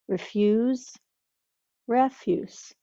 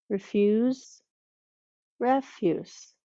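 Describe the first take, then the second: The two takes are said the same way.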